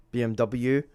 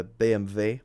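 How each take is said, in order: First: Said in the usual way. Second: "B M W" with German letter names, bay-em-vay; German pronunciation. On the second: Shown as a demonstration. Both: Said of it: "I should say".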